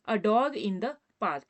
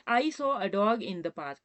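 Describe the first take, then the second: First: "dog" given the main weight, said very slowly; stress on dog. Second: Very slow, word by word; slow dictation. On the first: Teacher pointing students to "dog", slow and stressed. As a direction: lean on the word "dog" in a slow read. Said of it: "डॉग में ड की sound है". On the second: Teacher dictating an example sentence to students, very slowly. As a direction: read it out slowly for the class to copy. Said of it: "example ले रहे हैं". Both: Shown as a demonstration.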